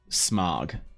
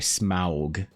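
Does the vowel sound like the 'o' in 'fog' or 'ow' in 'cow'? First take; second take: fog; cow. First: The vowel sounds like the 'o' in 'fog'. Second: The vowel sounds like the 'ow' in 'cow'. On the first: The speaker calls it wrong. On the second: The speaker calls it right. "You have to say Smaug"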